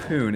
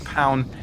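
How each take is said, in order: First: The vowel is an 'oo' sound. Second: The vowel is an 'ow' sound. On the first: It is read the Greek way. "the Ypsilon kind of after the O kind of makes an oo sound" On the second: It is read the English way. "it could well was be Pound instead"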